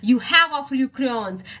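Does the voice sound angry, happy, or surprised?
angry. It is read in an angry voice.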